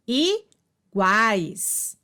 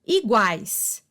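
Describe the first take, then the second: First: "iguais" drawn out as i-guais; divisão silábica. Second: Said in the usual way. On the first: Shown as a demonstration. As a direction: pause after the i of "iguais", keep guais whole. ("iguais" pausado, em i-guais) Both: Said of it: "na mesma sílaba".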